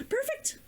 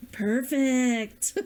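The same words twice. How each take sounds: First: Perfect said with a high, soft, rising lift. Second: Perfect said with a laugh and a falling end. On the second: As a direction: let Perfect drop with a chuckle. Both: Pretend.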